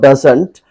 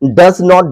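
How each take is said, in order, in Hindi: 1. इसे एक संकुचित शब्द की तरह बोला जाता है। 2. इसे दो अलग-अलग पूरे शब्दों की तरह बोला जाता है। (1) "डस नॉट को आप डजंट पढ़ेंगे" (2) "डस नॉट को आप डजंट पढ़ेंगे"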